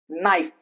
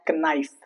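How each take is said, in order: First: The K at the start is silent. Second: The K at the start is pronounced. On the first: The speaker calls it right. "K before N" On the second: The speaker calls it wrong. "It's not knife"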